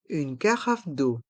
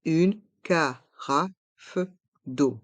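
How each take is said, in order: First: Said in the usual way. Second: "Une carafe d'eau" in slow, separate syllables; slow model pronunciation. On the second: Shown as a demonstration. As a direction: pause between syllables, releasing the f of "carafe". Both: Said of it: "Prononçons".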